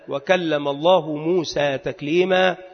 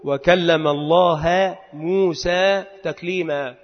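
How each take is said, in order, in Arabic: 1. ينتهي اسم الله بحركة الضمة. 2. ينتهي اسم الله بحركة الفتحة.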